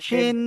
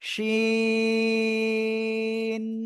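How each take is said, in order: First: The vowel is clipped short. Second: The vowel is stretched out long. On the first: The speaker calls it wrong. "এরকম অনেকে উচ্চারণ করতেছেন, কিন্তু এমন উচ্চারণ করা যাবে না।" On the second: The speaker calls it right. "এভাবে উচ্চারণ করতে হবে।"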